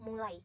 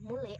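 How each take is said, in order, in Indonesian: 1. Vokal akhir meluncur dari a ke i. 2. Vokal akhir tetap tunggal, tanpa peluncuran. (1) "bukan mulai" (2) "mereka cenderung mengucapkan tanpa pergeseran bunyi"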